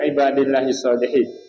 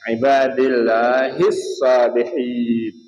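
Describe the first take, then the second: First: The vowel is cut short. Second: The vowel is drawn out long. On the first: The speaker calls it wrong. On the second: The speaker calls it right.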